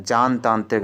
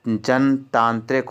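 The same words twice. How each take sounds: First: "जानतांत्रिक" with a long first aa; wrong form demonstrated. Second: "जनतांत्रिक" with a short first a; correct form demonstrated. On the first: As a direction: start "जानतांत्रिक" with long jaan. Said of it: "जानतांत्रिक नहीं होता है". ("जानतांत्रिक" में बड़ा आ) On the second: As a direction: start "जनतांत्रिक" with short jan. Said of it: "जनतांत्रिक होता है". ("जनतांत्रिक" में छोटा अ) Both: Shown as a demonstration.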